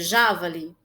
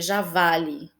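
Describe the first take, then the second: First: The stress is on the first syllable. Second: The stress is on the middle syllable. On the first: "se o já fosse mais forte, a pronúncia seria javali?" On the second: "se o vá fosse mais forte, seria javali"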